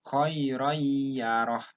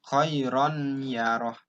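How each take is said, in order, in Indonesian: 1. Bunyi n menyatu menjadi y ganda yang sengau. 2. Bunyi n dibaca terpisah sebelum y. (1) "n-nya dihilangkan langsung ke ya" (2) "Kalau orang yang nggak ngerti tajwid, pasti dibacanya khairon yaroh"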